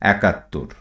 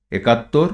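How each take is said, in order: First: একাত্তর with an open æ at the start; spoken form with æ. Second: একাত্তর with a closed e at the start; spelling pronunciation with e. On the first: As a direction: say একাত্তর as "ækattor", falling at the end. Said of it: "যার উচ্চারণ হবে". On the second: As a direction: read একাত্তর as written, "ekattor", tone rising. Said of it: "তদ্ভব". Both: Shown as a demonstration.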